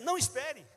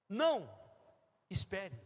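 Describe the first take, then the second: First: The words run together without any pause. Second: There is a pause after the first word. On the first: The person is told not to wait. "já mudou completamente se não tiver a vírgula" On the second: The person is told to wait. "Eu estou dizendo para a pessoa esperar"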